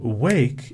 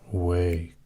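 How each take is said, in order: First: It is said in a bright, alert voice. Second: It is said in a soft, drowsy voice. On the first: The speaker calls it right. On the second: The speaker calls it wrong.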